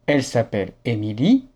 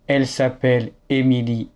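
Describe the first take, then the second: No difference in how they are said.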